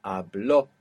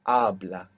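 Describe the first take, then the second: First: Habló, lower, with BLÓ stressed; final-syllable stress. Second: Habla, stressed on the first syllable, HA; penultimate stress. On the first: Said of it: "are gonna have that accent". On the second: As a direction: hit the A at the start of Habla. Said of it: "natural accent will be on the penultimate". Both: Shown as a demonstration.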